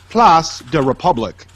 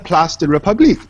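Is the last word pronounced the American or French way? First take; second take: American; French. First: The last word is said with American pronunciation. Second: The whole name is said with French pronunciation. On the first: The speaker calls it wrong. "Don't start something and Americanize it at the end" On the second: The speaker calls it right. "say the Place de République"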